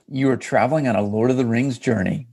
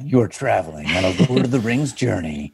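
First: It is said in a normal speaking voice. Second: It is said in a dramatic movie-trailer voice.

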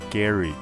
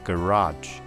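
First: It is said in a British accent. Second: It is said in an American accent. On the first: "英式叫做garage" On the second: "美式叫做garage"

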